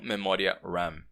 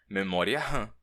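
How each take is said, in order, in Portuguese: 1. RAM é pronunciado com pronúncia inglesa. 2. RAM é pronunciado com pronúncia portuguesa. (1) "não memória RAM" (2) "com a pronúncia portuguesada"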